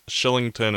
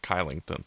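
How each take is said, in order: First: The name begins with an SH sound. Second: The name begins with a hard K sound. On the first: The speaker calls it right. "the letter K followed by a vowel means it's shilling, or S-H sound" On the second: The speaker calls it wrong. "instead of"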